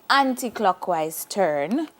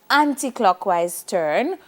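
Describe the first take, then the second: No difference in how they are said.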